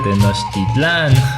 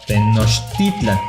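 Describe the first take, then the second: First: The stress falls off the second-to-last syllable. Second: The stress falls on the second-to-last syllable. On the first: The speaker calls it wrong. "en lugar de" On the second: The speaker calls it right. "todas las palabras son graves"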